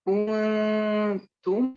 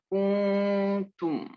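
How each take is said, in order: First: The n is hidden in a nasal hum. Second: The n is pronounced clearly and fully. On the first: The speaker calls it right. "ketika ikhfa, kuntum bukan kuntum" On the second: The speaker calls it wrong.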